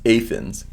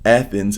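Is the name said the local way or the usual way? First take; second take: local; usual. First: The name is said the local way. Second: The name is said the usual way.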